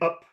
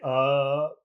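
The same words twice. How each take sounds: First: The word is said short and clipped. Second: The word is drawn out and held long. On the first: The speaker calls it wrong. "instead of saying up" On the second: The speaker calls it right. "Here it sounds better if you say up, make it long"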